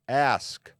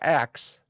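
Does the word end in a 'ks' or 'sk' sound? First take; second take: sk; ks. First: The word ends with an sk sound. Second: The word ends with a ks sound. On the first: The speaker calls it right. "the word is spelled A S K" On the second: The speaker calls it wrong. "not axe"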